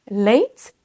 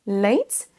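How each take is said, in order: Both takes have the same delivery.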